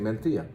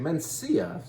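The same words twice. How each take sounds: First: The c is said like a th. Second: The c is said like an s. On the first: "that's how they would say it. They say Mencia" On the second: "if you don't want to say it with a lisp, you can say Mencia"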